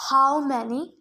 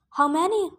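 First: Mildly demanding, weightier question. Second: Said in the usual way. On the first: A narrator's reading. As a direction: press for an answer, with restraint. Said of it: "the general demanded". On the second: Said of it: "Luke asked".

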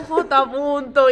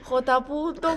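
First: Drawn-out call, much slower; slow loud call. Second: Fading call. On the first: Amigo vuelve a llamar a J punto, llamada lenta y alargada. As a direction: stretch the name out as a long call. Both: Retold or imitated. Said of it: "se fue bajando la intensidad".

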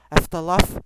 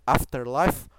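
First: Afterlife as EF-ta-laf, clipped English r; English-style pronunciation. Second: Afterlife with Portuguese vowels, AH-fter-lahyf; unsure pronunciation. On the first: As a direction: try Afterlife the English way, louder. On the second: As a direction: say Afterlife the Brazilian way, open a. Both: Shown as a demonstration. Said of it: "eu não sei, Afterlife".

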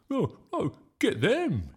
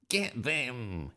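First: High, loud rallying yell; yelled back. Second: Restrained, drawn-out battle cry; a contained yell of command. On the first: Bertie yelling back at Nick's gang, high loud yell. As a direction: fire back a louder battle cry. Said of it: "he yelled back". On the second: Nick crimson with fury, mildly acted yell. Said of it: "he yelled". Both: A narrator's reading.

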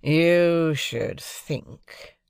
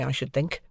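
First: Very slow, sneering echo with YOU stressed; mocking echo. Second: Said in the usual way. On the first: Drummle mimicking Pip, slow mocking echo. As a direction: stretch it out mockingly. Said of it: "retorted Drummle".

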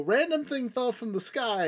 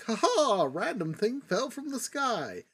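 First: Said in the usual way. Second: High, laughing, goofy mock announcement; mock the cheap plot twist with a laugh; mocking silly voice. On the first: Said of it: "is the last trope that you can use". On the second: Mocking a lazy plot device.

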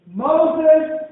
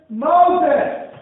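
No difference in how they are said.

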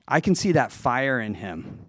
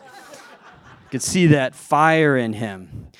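First: Cool Nadal way. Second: Slow, cool and smooth, a hint of a Spanish tennis star; Rafael Nadal. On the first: Retold or imitated. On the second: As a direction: savor it slowly, suave and relaxed. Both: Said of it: "in a really cool, like, Rafael Nadal sort of way".

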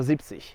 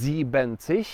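First: "siebzig" in two syllables, zip-tsish; correct shortened form. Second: "siebzig" said with an extra syllable, as sieben-zig; wrong full form. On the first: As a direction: say "siebzig" with sieben cut down to "zip". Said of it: "tylko siebzig". („siebzig” poprawnie, skrócone: zip-cyś) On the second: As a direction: stretch "siebzig" into three syllables, zie-ben-tsish. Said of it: "To nie jest siebzig". („siebzig” błędnie, z pełnym sieben: zi-ben-cyś) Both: Shown as a demonstration.

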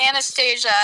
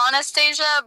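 First: Anastasia said the everyday American way; American pronunciation. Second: Anastasia opening with an "ah" vowel; original pronunciation. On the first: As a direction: say Anastasia as an English name, opening like "Anna". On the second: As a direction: say Anastasia the non-American way, "Ah-nastasia". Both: Shown as a demonstration. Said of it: "it's actually Anastasia, but, like, we're in America".

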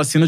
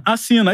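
First: Said in the usual way. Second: "assina" pitched high, then falling; polished catchphrase. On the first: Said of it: "de qualquer jeito". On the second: Shown as a demonstration. Commentator demonstrating his own catchphrase, high falling "assina". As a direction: call out "assina" high, as a signature line. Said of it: "Aí fui aperfeiçoando".

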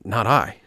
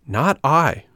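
First: Mildly hesitant, breathless denial; a touch of a nervous stammer. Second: Higher, louder "Not I"; insistent repeat. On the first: Puppet answers the soldiers, breathless stammer. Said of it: "stammered the puppet breathlessly". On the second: Puppet denies it to the soldiers once more, insistent. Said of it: "repeated Pinocchio". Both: A narrator's reading.

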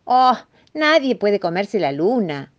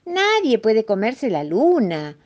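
First: Slow, higher, louder rabbit. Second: Slow, higher mock at the mouse; amused mole. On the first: Acted. Rabbit tells the mouse it is impossible, rabbit voice. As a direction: draw it out as a mildly incredulous rabbit. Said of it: "dijo el conejo". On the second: Mole laughs off the mouse's confession, mildly amused. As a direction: draw it out with a touch of amusement. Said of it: "dijo el topo riéndose".

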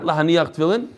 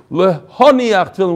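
First: Lahaniach with open a-vowels, the mistaken form; a slightly quieter Lahaniach, shown as the error; wrong Lahaniach. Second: Lehoniach said as le-ho-NI-ach, not Lahaniach; correct Lehoniach. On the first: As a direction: say Lahaniach the way it should not be said. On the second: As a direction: give Lehoniach its proper le-ho vowels. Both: Shown as a demonstration. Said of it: "Not Lahaniach Tfilin".

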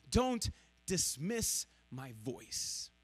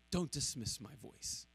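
First: Slow, soft pleading Don't dismiss my voice; quietly pleading, slowed right down; slow plea. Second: Much softer echo of Don't dismiss my voice; hushed, fading repeat; near-whisper plea. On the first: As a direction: ask it slowly and gently, as God pleading. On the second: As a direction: let it fall to almost nothing. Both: Shown as a demonstration. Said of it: "repeated plea".

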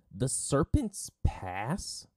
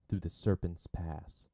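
First: High, loud, drawn-out disbelieving question; stretched, incredulous cry of "Serpent's Pass"; shocked outburst. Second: "Serpent's Pass" said slowly, with mild pride; understated pride. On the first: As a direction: erupt on "Serpent's Pass", voice rising. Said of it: "Sokka erupted". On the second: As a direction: announce "Serpent's Pass" slowly at usual pitch. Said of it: "Katara said proudly". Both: A narrator's reading.

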